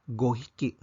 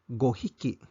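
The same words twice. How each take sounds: Both takes have the same delivery.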